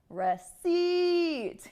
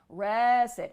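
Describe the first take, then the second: First: The stress is on the second syllable. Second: The stress is on the first syllable. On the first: The speaker calls it right. "the correct syllable stress would be stressing the second syllable" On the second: The speaker calls it wrong. "the first part of the word. ... this is incorrect"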